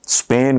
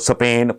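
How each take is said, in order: First: The word is said the standard way. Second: The word is said in an odd, distorted way. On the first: The speaker calls it right. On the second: The speaker calls it wrong.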